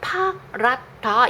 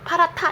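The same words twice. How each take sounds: First: The h and d sounds are said separately. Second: The h and d merge into an aspirated t. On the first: The speaker calls it wrong. "이렇게 말하지 않아" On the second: The speaker calls it right. "이렇게 말하죠"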